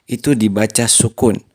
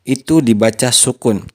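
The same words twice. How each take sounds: Both takes have the same delivery.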